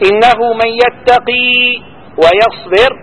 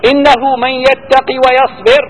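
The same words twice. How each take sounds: First: Slow, high recitation, ويصبر stopped and rising; recited with pause intent. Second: ويصبر ends stopped, as at the end of a verse; pausal recitation. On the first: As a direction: stop on ويصبر, then carry straight on. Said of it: "سكنها بنية الوقف ثم وصل فيها". (تلاوة بنية الوقف ثم الوصل) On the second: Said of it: "كيف تقف عليها كآخر آية". (وقف على ويصبر بالسكون) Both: Shown as a demonstration.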